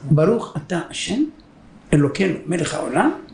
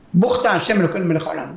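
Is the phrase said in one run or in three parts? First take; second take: three parts; one run. First: It is said in three parts with pauses. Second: It is said in one quick run.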